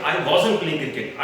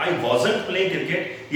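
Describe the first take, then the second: First: "wasn't" reduced to wazn before playing; contracted wasn't. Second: "wasn't" as a full wa-zant with t; ugly wrong wasn't. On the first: Teacher modelling for learners, reduced wasn't. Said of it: "Simply आप बोले". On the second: Teacher showing how wrong it sounds, full wasn't. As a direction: pronounce "wasn't" out heavily to the t. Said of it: "कितना गलत लगता है सुनने में". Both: Shown as a demonstration.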